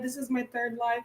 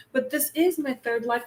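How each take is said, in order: First: Softly fading this is my third live, a bored imitation of herself; mock self-quote. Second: Said in the usual way. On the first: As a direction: drop to a soft, tired mock of her own routine. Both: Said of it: "I stop saying".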